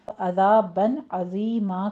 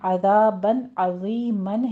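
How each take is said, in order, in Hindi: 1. आख़िरी शब्द लंबी a पर ख़त्म होता है। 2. आख़िरी शब्द n की आवाज़ पर ख़त्म होता है। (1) "अज़ाबन अज़ीमा कर लेंगे हम" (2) "अज़ाबन अज़ीमन है"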